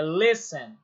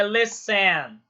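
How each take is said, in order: First: "listen" stressed on the first syllable, LIS-ten. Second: "listen" stressed on the second syllable, lis-TEN; wrong stress on TEN. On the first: Teacher correcting the stress of listen, onto the first syllable. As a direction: hit "lis" and let "ten" fall away in "listen". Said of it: "a sílaba tônica é o les". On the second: Teacher showing students the wrong stress of listen, on the end. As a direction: lean hard on the "ten" of "listen". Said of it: "é o les e não o ten". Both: Shown as a demonstration.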